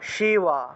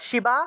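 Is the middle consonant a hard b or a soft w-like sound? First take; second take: soft w; hard b. First: The middle consonant is a soft w-like sound. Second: The middle consonant is a hard b sound. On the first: The speaker calls it right. "এই যে শিবা এটা হলো অন্তস্থ ব" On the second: The speaker calls it wrong. "শিবা বলা যাবে না"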